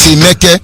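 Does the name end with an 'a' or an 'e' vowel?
e. The name ends with an 'e' vowel. This is the form used in the speaker's own dialect. The speaker calls it right. "My dialect is Emeke"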